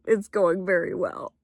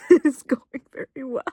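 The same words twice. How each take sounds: First: Said in the usual way. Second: Laughing through the words, louder; laughing repeat. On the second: Real, not acted. Vlogger reporting the movie's going great, laughing. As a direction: giggle it out, delighted.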